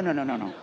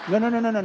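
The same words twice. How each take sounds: First: Said in the usual way. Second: Loud, high repeated no's, each one hit hard; emphatic no. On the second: Shown as a demonstration. To workshop group, insisting no blame, emphatic. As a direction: shut the idea down firmly.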